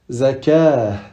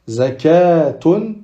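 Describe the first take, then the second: First: The ending is pronounced with an h sound. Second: The ending is pronounced with a t sound. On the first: The reading stops on the word. "Si on va s'arrêter dessus, on va le prononcer comme un ha" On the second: The reading continues after the word. "on continuer, on prononce le tamarbuta comme un ta"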